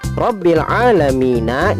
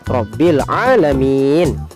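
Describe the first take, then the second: First: The last word ends with a full vowel ending. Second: The last word ends on a bare consonant.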